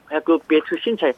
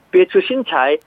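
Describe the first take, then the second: First: 비해주 신차이 run together smoothly in one quick breath, tones flowing; quick and natural. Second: 비해주 신차이 chopped syllable by syllable, each Chinese tone placed separately; staccato. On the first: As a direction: say 비해주 신차이 fast and connected like a native. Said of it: "이렇게 빨리 말할 땐 비교적 자연스러운데". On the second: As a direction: say 비해주 신차이 one syllable at a time with deliberate tones. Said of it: "하나하나 글자를 딱딱 끊어서 말할 때는 제 성조가 별로 좋지 않게". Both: Shown as a demonstration.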